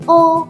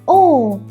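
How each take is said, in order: First: The pitch stays high and level. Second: The pitch falls sharply downward. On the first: "do re mi fa sol" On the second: "like you suddenly fall down"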